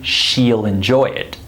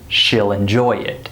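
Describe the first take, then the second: First: The vowel is a long ee sound. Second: The vowel is a short i sound. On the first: The speaker calls it wrong. "I wouldn't say" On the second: The speaker calls it right. "I would say"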